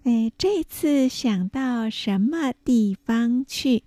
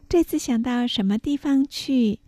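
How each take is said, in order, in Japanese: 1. この文はゆっくり丁寧に話されている。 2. この文は普通の会話の速さで話されている。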